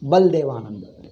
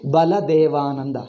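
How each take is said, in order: First: The vowel after 'Bal' is dropped. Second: Every vowel is kept, including after 'Bal'.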